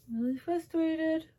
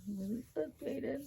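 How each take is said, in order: First: "frustrated" pitched very high, drawn out slowly; very high, slow comic whine. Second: "frustrated" pitched up high and soft; high, soft, whiny "I'm really frustrated". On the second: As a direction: squeak out how fed up you are. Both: Real, not acted.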